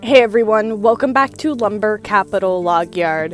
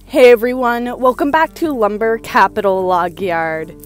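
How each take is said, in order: First: The greeting is delivered plainly. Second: The greeting is delivered dramatically.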